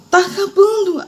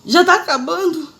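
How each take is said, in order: First: Very high, wailing "Tá acabando."; "Tá acabando." dito bem agudo, num lamento; high pleading whine. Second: High, slow, drawn-out plea "Já tá acabando?"; "Já tá acabando?" pedida alta e arrastada; whiny pleading question. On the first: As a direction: cry it out high, at the end of your strength. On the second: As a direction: beg in a high stretched voice, weary of the pain. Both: Retold or imitated. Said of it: "E bem assim, ó".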